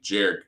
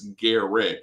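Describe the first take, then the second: First: The name begins with a J sound. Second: The name begins with a hard G sound. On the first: The speaker calls it wrong. "made it sound like a J" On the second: The speaker calls it right. "It's like Derek, but put a G in the front"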